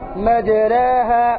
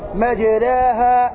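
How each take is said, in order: The two takes are said the same way.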